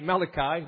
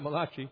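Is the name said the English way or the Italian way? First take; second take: English; Italian. First: The name is said the plain English way. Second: The name is said like an Italian name. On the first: The speaker calls it right. "It's actually Malachi" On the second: The speaker calls it wrong. "not Malachi"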